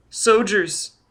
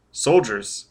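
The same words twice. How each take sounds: First: Put-on high little-boy voice; child answering. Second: Said in the usual way. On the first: A narrator's reading. Child tells Foyle who is above, high small voice. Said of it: "the child answered".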